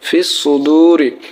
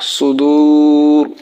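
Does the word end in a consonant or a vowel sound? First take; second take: vowel; consonant. First: It ends on a short i vowel. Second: It ends on r, with the long u stretched. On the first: The reading continues without stopping. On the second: The reader stops at this word.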